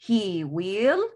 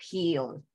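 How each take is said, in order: First: It is said as two full words. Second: It is said as one contracted syllable. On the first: "forma larga" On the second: "en forma corta se pronuncia he'll"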